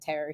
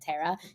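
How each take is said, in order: First: The final R is clearly pronounced. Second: The final R is dropped into the vowel. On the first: "instead of terror" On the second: "a final R for it to sort of become part of the vowel"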